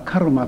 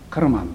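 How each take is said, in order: First: The word ends on a vowel, without n. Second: The word ends with a final n sound. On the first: This is the present-day form of the term. "最後のN の音が落ちて今はカルマというふうになって" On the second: This is the original form of the term. "本当はこれカルマンというんだそうですが"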